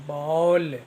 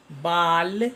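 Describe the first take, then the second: First: बॉल with a rounded "aw" vowel, the correct way; correct pronunciation. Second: बाल said with a flat open "aa", the wrong way; wrong pronunciation. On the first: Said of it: "शुद्ध शुद्ध उच्चारण होगा बॉल". (शुद्ध उच्चारण "बॉल") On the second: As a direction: say बाल as "baal", like the Hindi word for hair. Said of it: "एक गलत pronunciation होगा". (ग़लत उच्चारण "बाल") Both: Shown as a demonstration.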